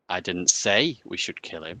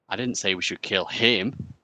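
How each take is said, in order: First: The stress falls on the word 'say'. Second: The stress falls on the word 'him'.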